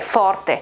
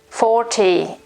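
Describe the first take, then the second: First: It is said with an Italian pronunciation. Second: It is said in a British English accent. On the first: "but we pronounce it forte" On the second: "forte in the U K"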